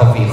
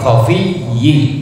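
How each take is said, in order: First: The word ends with a short i sound. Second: The word ends with a doubled -iyyi sound. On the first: The speaker calls it wrong. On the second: The speaker calls it right.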